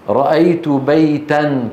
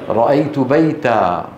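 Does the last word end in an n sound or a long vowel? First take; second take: n sound; long vowel. First: The last word ends with an n sound. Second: The last word ends with a long a vowel. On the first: The phrase runs on without stopping. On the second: The speaker stops at this word.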